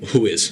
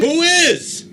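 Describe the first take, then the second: First: The question ends with little or no rise. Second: The question ends with a strong upward rise. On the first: The speaker calls it wrong. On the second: The speaker calls it right.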